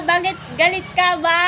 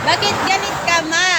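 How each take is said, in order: First: Higher, louder playful whine, stretching out ba; mock whiny. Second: Higher, louder playful whine; mock whiny. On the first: Streamer asking mom again why she's angry, playful higher whine. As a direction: ask it like a pouting kid. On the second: Streamer teasing mom for being angry, higher playful whine. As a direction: tease her like a sulky kid.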